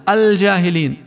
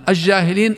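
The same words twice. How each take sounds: First: The L sound is clearly pronounced before the J. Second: The L sound is hidden and merged into the J. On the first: The speaker calls it right. "ومثلها" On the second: The speaker calls it wrong. "قد يقرؤونها بلام شمسية فيخفونها"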